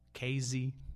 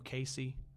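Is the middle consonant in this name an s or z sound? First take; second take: z; s. First: The middle consonant is a buzzing z sound. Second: The middle consonant is a hissing s sound. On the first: The speaker calls it wrong. "People in Terre Haute put a Z in it" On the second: The speaker calls it right. "that none of y'all pronounce the right way"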